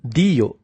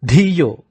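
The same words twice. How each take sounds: First: "Diyo" with plain d, no puff of breath; unforced d. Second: Louder "Dhiyo" with a forceful puff on Dh; emphatic "Dhiyo", Dh heavily aspirated; strong aspirated dh. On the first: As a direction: keep the D of "Diyo" unaspirated. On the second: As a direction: push breath through the Dh of "Dhiyo". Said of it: "it is a strong Dhi". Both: Shown as a demonstration.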